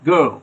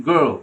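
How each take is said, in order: No difference in how they are said.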